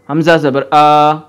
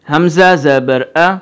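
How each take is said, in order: First: The final vowel is stretched out long. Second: The final vowel is kept short. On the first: The speaker calls it wrong. "मैं ज़रा गलत पढ़ के बता रहा हूँ ... ये गलत है, लंबा नहीं करना" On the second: The speaker calls it right. "सही, मैं अब पढ़ने लगा ध्यान से ... इतना खींचना है बस"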